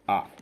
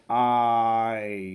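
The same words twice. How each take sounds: First: The word is short and unstressed. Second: The word is long and stressed. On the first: "if we do not make any stress ... it is going to be the faster one" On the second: "the longer way. the stressed one. we have to stress it"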